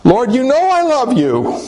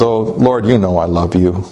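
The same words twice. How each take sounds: First: High, pleading protest; acted anguish, pitch raised; agonized. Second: Low, subdued reply; understated acted hurt. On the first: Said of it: "in agony". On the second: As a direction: say it low, mildly wounded. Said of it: "Peter is hurting".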